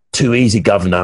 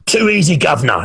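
First: Lower-pitched imitation of a worn-out client; imitating exhausted client. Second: Higher-pitched mock Canadian accent, dropping at the end; imitated Canadian accent. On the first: Beaten client to trainer from the shower floor, imitated low voice. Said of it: "and he said". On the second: Client taunts his trainer between sets, imitated Canadian accent. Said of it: "in his Canadian accent".

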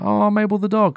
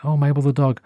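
First: High, mournful oh over the lost dog; a high wail of fond grief; sad sigh. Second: Mild surprise. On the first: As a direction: lament her like a lost friend. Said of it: "I got so sad". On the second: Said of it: "and I was like". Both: Retold or imitated.

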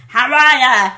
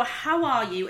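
First: Loud Boston greeting, words run together; Boston accent. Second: Said in the usual way. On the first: Shown as a demonstration. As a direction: belt out a demo Boston accent. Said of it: "how are you is how are ya". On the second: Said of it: "So how are you is".

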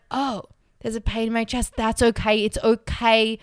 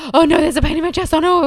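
First: Calm acceptance. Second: Higher, louder, fast mock panic; panicked. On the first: Retold or imitated. Scared flyer calmly accepting her chest pain, gentle. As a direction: ease into it calmly. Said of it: "if I'm able to be like". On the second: Scared flyer noticing chest pain, mock panic. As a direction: rattle it off in a fearful rush. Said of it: "I'll just be like".

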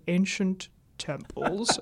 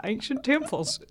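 First: Ancient temples with a clean AYN-shent, no drawl; standard ancient temples. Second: Ancient temples with a drawn Southern ANE-kshent vowel. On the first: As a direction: say ancient temples the neutral broadcast way. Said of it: "a producer on the other side of the glass saying". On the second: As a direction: say ancient temples with a Georgia drawl. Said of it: "my ancient temples accent". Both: Retold or imitated.

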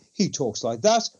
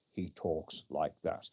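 First: A hint of Wakefield's casual tone, lightly voiced; imitating the first of his two tones; Wakefield's everyday tone. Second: Much lower, much softer and slow mock-serious voice; Wakefield's serious tone. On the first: Mocking Wakefield's usual tone to a fellow activist, lightly imitated. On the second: Mocking Wakefield's serious voice to a fellow activist, low, soft and slow. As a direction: drop into a grave, hushed imitation, slowly. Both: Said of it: "he only ever talks in two tones".

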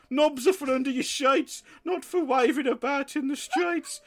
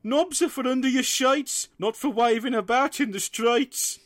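First: High sing-song blurted rhyme; blurting dad. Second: High, sing-song scolding parent; parental lecture. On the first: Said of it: "my dad just blurted out". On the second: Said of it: "gave me the usual lecture". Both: Retold or imitated.

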